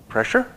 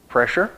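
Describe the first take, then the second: First: Pressure? asked much higher, rising; high incredulous Pressure?; high rising question. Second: Said in the usual way. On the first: Shown as a demonstration. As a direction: lift Pressure? way up like a puzzled question.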